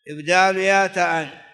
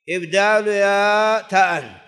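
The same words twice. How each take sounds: First: Said in the usual way. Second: إبدال stretched out slow and louder; teacher drilling إبدال يا تاء with weight; slow emphatic. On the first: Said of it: "إبدال يا تاء، (first take)". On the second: Shown as a demonstration. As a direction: lean hard into إبدال, slowly. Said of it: "إبدال يا تاء، (repeated)".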